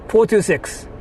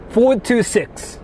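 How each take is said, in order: Both takes have the same delivery.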